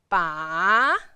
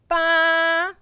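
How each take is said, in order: First: The pitch dips low and then rises. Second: The pitch stays high and level. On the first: "the third tone, you will move your chin down and then move your head up later" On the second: "when you pronounce the first tone and try to keep the sound flat"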